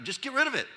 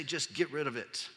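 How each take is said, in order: First: Higher, mocking glibness; mocking Paul's simple advice, higher. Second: Said in the usual way. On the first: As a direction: make it sound glib and dismissive. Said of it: "how helpful is that". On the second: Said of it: "How can he just say".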